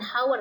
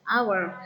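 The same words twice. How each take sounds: First: The word starts with an audible h sound. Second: The word starts with a vowel, h silent. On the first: The speaker calls it wrong. "dibacanya bukan hour ya" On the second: The speaker calls it right. "hanya tidak dibaca ya"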